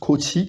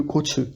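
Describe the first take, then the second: First: The word ends in an 'ee' vowel. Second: The word ends in an 'eh' vowel. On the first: The speaker calls it right. "ça donnera plus coachy" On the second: The speaker calls it wrong. "que coache"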